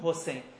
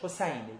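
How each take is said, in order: First: The name is said with a Persian kasra vowel. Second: The name is said in its original form. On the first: "ما فارسیم مایلیم به کسره حسین رو بگیم" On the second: "اصلش حسینه"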